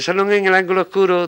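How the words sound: It is recited in a thin, squeaky, fluted voice. The speaker calls it wrong. "decíamos con aquella voz aflautada, voz entre voz de rata"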